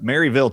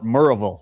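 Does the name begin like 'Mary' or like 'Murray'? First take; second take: Mary; Murray. First: The first part sounds like 'Mary'. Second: The first part sounds like 'Murray'. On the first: "he still mispronounces it" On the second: "They call it Murrayville"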